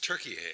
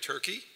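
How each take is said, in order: First: The word is said with three syllables. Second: The word is said with two syllables. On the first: The speaker calls it right. "It's Turkey. ... there's another syllable in there that we never say" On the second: The speaker calls it wrong. "the country is not pronounced correctly Turkey"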